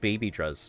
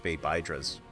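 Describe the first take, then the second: First: The middle syllable sounds like 'bee'. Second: The middle syllable sounds like 'bye'. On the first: "they're called baby druz" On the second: "Unless you pronounce the the the the B Y in baby as you would the H Y in hydra"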